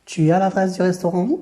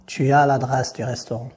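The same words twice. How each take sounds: First: "Tu as l'adresse du restaurant" pitched higher, as a question; change the voice into a question, lifted through to "restaurant"; question intonation. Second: Said in the usual way. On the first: Shown as a demonstration. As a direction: ask it by intonation alone, voice held high up to "restaurant". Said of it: "l'interrogation en changeant la voix". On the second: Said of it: "prononcer ma phrase de manière affirmative".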